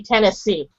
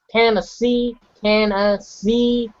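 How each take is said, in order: First: Said in the usual way. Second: "Tennessee" drawn out slowly, syllables stressed; American stress. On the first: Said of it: "Like, I say Tennessee". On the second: Shown as a demonstration. Showing how Americans say it, stressed drawn-out "Tennessee". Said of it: "They stress the certain letters".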